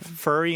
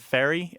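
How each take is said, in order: First: The vowel has a regional dialect sound. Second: The vowel has the common, widespread sound. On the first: "furry instead of fairy" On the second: "instead of fairy"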